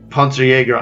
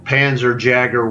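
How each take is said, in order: First: It is said with a German accent. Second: It is said with an American accent. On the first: "The first one was proper German" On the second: "The second one was American"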